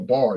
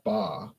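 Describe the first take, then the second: First: The final R sound is clearly pronounced. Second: The final R sound is dropped entirely. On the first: The speaker calls it right. "the letter R makes a sound like er" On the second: The speaker calls it wrong. "It's not a ba. A ba is what a sheep says"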